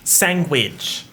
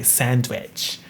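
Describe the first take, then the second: First: "Sandwich." said as sang-widge with a g sound; "Sandwich." as sang-widge, final fall; own sangwidge pronunciation. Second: "Sandwich." said the textbook way with a clear d, sand-wich; "Sandwich." with a crisp d, no ng; mocking standard pronunciation. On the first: Shown as a demonstration. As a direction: insist on the sang-widge version. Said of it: "Are you joking?". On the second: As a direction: grudgingly give them the proper sand-wich. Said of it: "What do you want me to say?".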